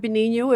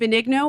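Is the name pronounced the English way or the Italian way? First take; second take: Italian; English. First: The name is said with an Italian-style pronunciation. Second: The name is said with an English-style pronunciation.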